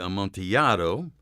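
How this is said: The word is pronounced with Spanish sounds. "if you're talking Spanish, it would be"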